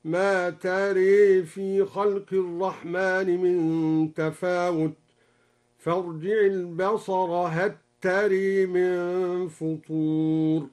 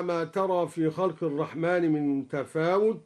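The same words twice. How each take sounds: First: Slow chant, "تري" tilted to taree with an e vowel; imala. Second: Said in the usual way. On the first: Shown as a demonstration. Sheikh demonstrates al-Duri's reading, slow chant with imala on "تري". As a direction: recite slowly, bending the final alif of "تري" toward e. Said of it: "قرأ بإمالة الألف بعد الراء".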